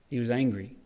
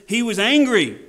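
First: Said in the usual way. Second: Loud, high, forceful ANGRY; raised-voice show of anger; acted anger. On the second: Shown as a demonstration. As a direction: hit it hard, demonstrating anger. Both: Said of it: "And I acted angry".

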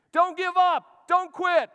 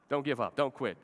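First: A high, loud shout from the corner; corner man yelling. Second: Said in the usual way. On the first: Retold or imitated. Corner man yells at his fighter in the cage, loud shout. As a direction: scream encouragement at a fighter in the cage. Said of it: "He's yelling at him". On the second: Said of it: "yells at you in love".

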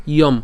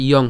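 First: "ইয়ম" ending in m; "ইয়ম" with m in place of ng; wrong ending M. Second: "ইয়ং" ending in ng; "ইয়ং" with lips left open; correct ending NG. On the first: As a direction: shut the lips on the end of "ইয়ম". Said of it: "ইয়ম হবে না". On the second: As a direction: say "ইয়ং" with the nasal ng at the end. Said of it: "ইয়ং হবে". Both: Shown as a demonstration.

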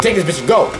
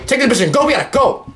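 First: Said in the usual way. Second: Higher, pressing repeat; urgent. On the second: Real, not acted. Gamer rushes to grab the relic, urgent. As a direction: hurry it up.

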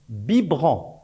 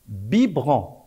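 Both takes have the same delivery.

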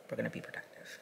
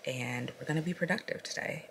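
First: Soft whispered repeat of "We're gonna be productive"; whispered aside. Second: Said in the usual way. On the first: Real, not acted. Telling viewers the day's plan, whispering it to herself.

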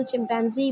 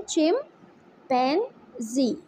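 First: Said in the usual way. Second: "चिम, पैन, जी" as three separate beats; split into syllables. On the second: Shown as a demonstration. Teacher divides the word for pupils, "चिम, पैन, जी" syllable by syllable. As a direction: leave a clear pause between "चिम", "पैन" and "जी". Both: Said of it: "three syllable word है ये भी".

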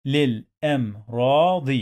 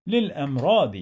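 First: للأمراض in separate syllables, long "raa"; sounded out. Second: Said in the usual way. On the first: Shown as a demonstration. Teacher drilling learners on reading, sounded-out للأمراض. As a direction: break للأمراض into lil, am, raa, di.

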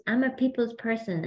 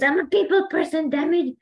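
First: Said in the usual way. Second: Much higher, louder mock-frustrated cry; upset outburst. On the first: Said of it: "He goes". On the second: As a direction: retell his fed-up snap with a grin. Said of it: "And then he gets so upset".

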